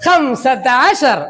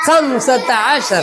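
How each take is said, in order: First: Slow model. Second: Slow repeat. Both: Shown as a demonstration. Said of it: "പറ".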